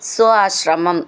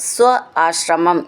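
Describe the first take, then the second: No difference in how they are said.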